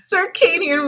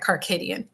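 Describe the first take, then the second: First: The first syllable sounds like 'sir'. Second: The first syllable sounds like 'car'. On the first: The speaker calls it right. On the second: The speaker calls it wrong.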